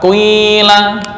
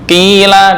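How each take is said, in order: First: The first vowel starts as u, then becomes i. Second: The first vowel is a plain i sound.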